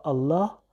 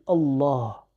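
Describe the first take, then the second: First: "Allah" with a light, thin lam; wrong Allah. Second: "Allah" with a heavy, emphatic lam and dark a. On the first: Teacher showing students the wrong way, light "Allah". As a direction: say "Allah" without emphasis, light l and front a. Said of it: "On dit pas Allah". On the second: Teacher showing students the right way, emphatic "Allah". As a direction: thicken the l in "Allah", back the vowel. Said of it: "il est un peu emphatique". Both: Shown as a demonstration.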